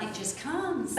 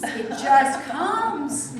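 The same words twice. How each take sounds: First: Said in the usual way. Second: It just comes drawn out very slowly and louder; slow emphatic. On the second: Shown as a demonstration. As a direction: stretch It just comes right out. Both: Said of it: "repeated for emphasis".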